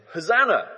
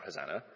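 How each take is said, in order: First: Loud, high cry of celebration; joyful shout. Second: Much lower, softer cry from down a well; a small, lost call for help; mock cry for help. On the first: Retold or imitated. The crowd cheers the arriving king, a loud high shout. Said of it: "They've been shouting". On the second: Someone stuck in a well calls weakly for help. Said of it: "you fall down a well and you need help and you shout".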